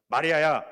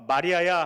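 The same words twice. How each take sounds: First: 마리아야 called short, firm and louder, falling; one clipped forceful call of 마리아야; short and strong call. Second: Said in the usual way. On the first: Acted. Jesus calling Mary by name, short and strong. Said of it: "짧고 간결하게 강하게 말씀하십니다". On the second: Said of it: "예수께서 하시거늘".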